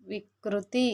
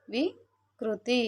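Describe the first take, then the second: First: Said in the usual way. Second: వికృతి stretched very slowly, syllable by syllable; slow demo pronunciation. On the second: Shown as a demonstration. Teacher modelling the word for children, very slow. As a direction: sound out వికృతి slowly for the class. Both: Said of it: "పలికేటప్పుడు".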